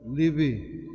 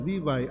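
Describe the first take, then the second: First: It is said with a Hebrew pronunciation. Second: It is said with an American English pronunciation. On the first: "Sa simple nga pag-pronounce sa Hebrew nga pinulungan" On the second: "Kung dito ka American ka, ang pronunciation Levi as in Levi's"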